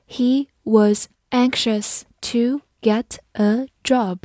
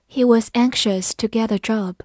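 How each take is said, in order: First: Slow, deliberate teaching read; slow classroom model sentence. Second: Said in the usual way. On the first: Shown as a demonstration. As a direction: stretch each word for learners.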